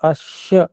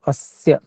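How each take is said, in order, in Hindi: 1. बीच का व्यंजन 'sh' जैसा सुनाई देता है। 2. बीच का व्यंजन 's' जैसा सुनाई देता है। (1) "अश्य ऐसा थोड़ा सा सुनाई दिया" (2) "तो अस्य ऐसे बोलेंगे"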